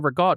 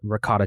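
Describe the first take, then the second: First: It is said the East Coast family way. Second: It is said with a general American pronunciation.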